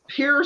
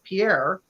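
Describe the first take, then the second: First: It is said with an American English pronunciation. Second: It is said with a French pronunciation. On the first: This is how locals say the place name. "we mispronounce all of them" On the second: This is the original form of the place name. "It's not Pierre"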